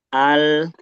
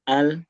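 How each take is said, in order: First: The final l sound is held and flows. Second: The final l sound is quick and clipped. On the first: The speaker calls it right. "tapi ada alirannya walaupun nggak sempurna" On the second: The speaker calls it wrong. "jangan cepet-cepet, jangan al"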